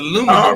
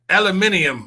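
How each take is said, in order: First: The word is pronounced the American way. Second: The word is pronounced the British way. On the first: "I'm like, it's aluminum" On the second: "how the British say aluminium"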